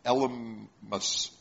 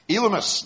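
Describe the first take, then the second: First: Elymas dragged out slowly and mumbled as "El-uh-us"; fumbled name. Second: Elymas said clearly as "EE-luh-mus", higher and louder; corrected name. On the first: Preacher tongue-tied over the sorcerer's name, slow fumbled try. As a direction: stumble through Elymas, slow and unsure. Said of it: "Did somebody else say it?". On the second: Preacher finally getting the sorcerer's name right, clear and firm. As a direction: land Elymas firmly on the second try. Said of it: "There we go". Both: Shown as a demonstration.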